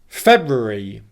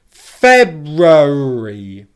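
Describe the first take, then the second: First: It is said quickly, sounding like three syllables. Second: It is said slowly with four distinct syllables. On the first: "if I say the word quickly" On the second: "let me say the word really slowly now with all four syllables"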